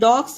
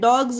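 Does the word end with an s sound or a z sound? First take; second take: s; z. First: The word ends with a hissing s sound. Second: The word ends with a buzzing z sound. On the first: The speaker calls it wrong. "ये डॉग्स नहीं होता है" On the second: The speaker calls it right. "ये डॉग्स होता है"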